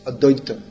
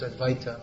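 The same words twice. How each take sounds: First: It is pronounced in Bengali style. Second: It is pronounced in strict Sanskrit style. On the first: This is the form used in Bengali. "actually in Bengali, it's" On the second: This is the strict classical form of the name. "According to strict Sanskrit pronunciation, it should be pronounced"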